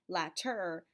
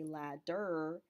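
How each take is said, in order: First: The middle consonant is a clear T. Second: The middle consonant is a clear D. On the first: "you don't say latter" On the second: "you don't say ladder"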